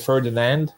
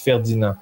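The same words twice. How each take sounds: First: It is said the English way, with final D. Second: It is said the French way, without final D.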